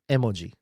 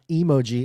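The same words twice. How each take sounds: First: The start is a separate short e sound. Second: The start sounds like the word emotion. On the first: The speaker calls it right. "it's emoji; e means image, art, and ji means word" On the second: The speaker calls it wrong. "It's not emoji, as Americans think, emotions"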